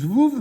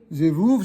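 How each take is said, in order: First: No vowel is heard between z and v. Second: A vowel is heard between z and v. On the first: The speaker calls it wrong. "certains disent zvouv" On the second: The speaker calls it right. "c'est zévouv d'après la grammaire"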